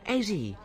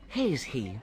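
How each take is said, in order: First: The h sounds are dropped from both words. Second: The h sounds are pronounced in both words. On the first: The speaker calls it wrong. "I've got a lot of difficulty with them" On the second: The speaker calls it right. "I should say has he"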